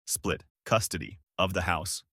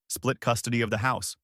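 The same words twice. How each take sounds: First: "Split... custody... of the house" in lower, separated chunks; incredulous echo. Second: Said in the usual way. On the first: A narrator's reading. Ex-husband echoing his ex-wife's proposal, deliberate disbelieving repeat.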